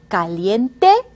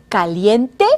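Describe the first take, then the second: The two takes are said the same way.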